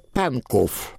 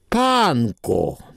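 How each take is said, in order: First: The name ends with a clear v sound. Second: The name ends on the vowel, no v sound. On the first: It is read the way it is written. "Я говорю так, как там написано" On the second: It is said the way locals say it. "Полицейский сказал, Панко. ... Вот одна буква"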